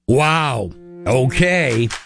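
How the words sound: It sounds sarcastic.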